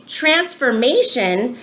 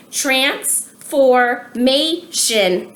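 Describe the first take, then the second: First: Said in the usual way. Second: Very slow, each syllable pulled apart; slowly by syllables. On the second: Shown as a demonstration. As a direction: spell out transformation in four beats. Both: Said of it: "four syllables".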